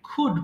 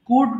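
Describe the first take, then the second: First: The first consonant is an aspirated kh. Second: The first consonant is a plain unaspirated k. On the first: "এটাকে খ দিয়ে খুড বলবা" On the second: "কুড বলতাম"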